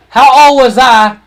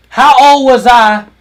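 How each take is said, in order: Both takes have the same delivery.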